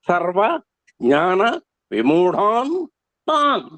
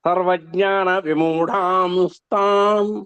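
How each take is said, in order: First: The words are said separately, ending in plain n. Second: The words are joined, with an s sound inserted. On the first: "దీని యొక్క అసలు స్వరూపం" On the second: "మార్పు చెంది"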